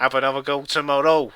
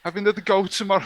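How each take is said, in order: First: Quick mock Scouse delivery; attempted Scouse accent. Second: Higher, badly faked Scouse; bad Scouse accent. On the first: Co-host showing how it goes, brisk attempted Scouse. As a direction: have a brisk stab at Scouse. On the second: Reading the quiz verdict, poorly attempted Scouse accent. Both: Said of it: "I can't do a Scouse accent".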